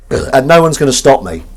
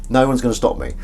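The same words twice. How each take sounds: First: Loud, emphatic declaration; raised-volume playful defiance; mock defiance. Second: Said in the usual way. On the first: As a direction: announce it defiantly to the room. Mock defiant declaration, then muttered repeat.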